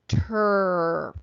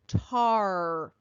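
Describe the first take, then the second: First: The vowel is a reduced 'er' sound. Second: The vowel is a full 'ar' sound. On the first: "so it's going to go er" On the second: "So the first one goes R"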